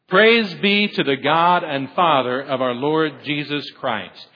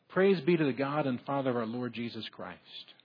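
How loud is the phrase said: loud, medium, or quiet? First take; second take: loud; quiet. First: The phrase is said fully and loudly. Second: The phrase is said quietly, without much volume. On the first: The speaker calls it right. "it really needs to have a little bit more volume" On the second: The speaker calls it wrong. "probably if I would have said that like it should be, it would have scared you"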